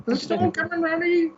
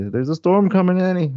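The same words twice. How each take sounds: First: Very high mock old-lady voice. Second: Put-on high, raised old-lady warning; imitating the old lady. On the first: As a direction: squeak it out as a caricatured old woman. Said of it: "Yeah, the old lady". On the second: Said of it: "that lady. Yeah, the old lady".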